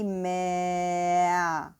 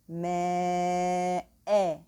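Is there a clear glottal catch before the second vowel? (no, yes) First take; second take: no; yes. First: The glottal catch is dropped and vowels run together. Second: A clear glottal catch separates the two vowels. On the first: The speaker calls it wrong. "I don't drop down the hamza" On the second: The speaker calls it right. "articulate the hamza properly"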